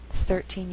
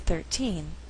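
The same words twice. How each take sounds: First: The stress is on the first syllable. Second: The stress is on the second syllable. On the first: It is not the last word in the phrase. "stress is on the first syllable" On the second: It is the last word before a pause. "we shift the stress to the second syllable"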